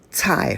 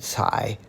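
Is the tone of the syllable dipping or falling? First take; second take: falling; dipping. First: The pitch falls sharply from high to low. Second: The pitch dips low and then rises. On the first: It means vegetable. "fourth tone, is vegetable" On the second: It means to step on. "third tone cai, to step on"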